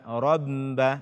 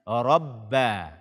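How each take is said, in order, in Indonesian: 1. Huruf b ganda itu dikeluarkan lewat hidung. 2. Huruf b ganda itu dibunyikan tanpa bunyi sengau. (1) "ba bertasdid dengan suara ke hidung"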